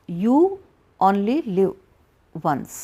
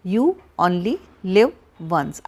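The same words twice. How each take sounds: First: Said in the usual way. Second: "you only live once" drawn out slow, each word set apart; slow spaced-out slogan. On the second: Shown as a demonstration. Counselor repeating the slogan to viewers, slowly. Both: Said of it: "आजकल कहते हैं ना".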